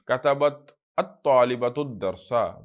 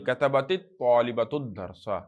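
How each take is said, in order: First: The first word ends separately, without a linking vowel. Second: The first word links on with an added i.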